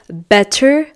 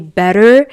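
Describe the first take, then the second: First: The middle T is a crisp, clear T. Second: The middle T is a soft, quick D. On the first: The speaker calls it wrong. "I don't say" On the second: The speaker calls it right. "I say"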